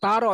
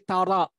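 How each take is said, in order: First: The r sound is swallowed and barely heard. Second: The r sound is clearly and fully pronounced. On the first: The speaker calls it wrong. "Bukan taro" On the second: The speaker calls it right. "tapi tara"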